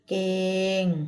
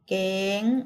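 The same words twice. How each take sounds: First: The word is said on a level mid tone. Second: The word is said on a high tone. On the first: "เสียงสามั" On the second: "เสียงตรี"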